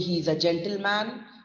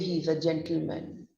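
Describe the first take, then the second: First: The last syllable has a full 'man' vowel. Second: The last syllable is reduced to 'min'. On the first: The speaker calls it wrong. "We don't say" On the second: The speaker calls it right. "We say he's a gentleman. M I N"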